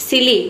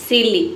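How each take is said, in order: No difference in how they are said.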